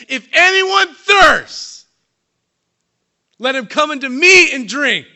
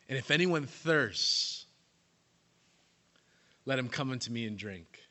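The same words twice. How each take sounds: First: Slow, high, full-voiced proclamation cutting the silence; Jesus shouting out. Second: Calm invitation. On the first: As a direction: cry it out across a hushed crowd. Jesus cries out at silent feast. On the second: Shown as a demonstration. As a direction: offer it gently this time. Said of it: "quoting again, contrasted".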